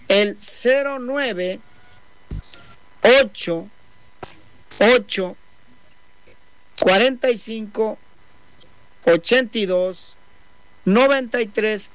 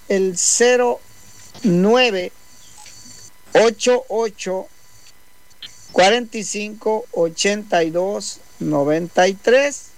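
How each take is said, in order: First: The number is said more slowly. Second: The number is said at normal speed.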